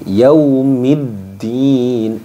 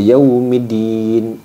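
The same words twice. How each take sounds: First: The d sound is doubled and pressed. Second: The d sound is single and light. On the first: The speaker calls it right. "ketika ada tasydid, maka ditekan" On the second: The speaker calls it wrong. "Jadi tidak hanya di, di dimasukkan saja"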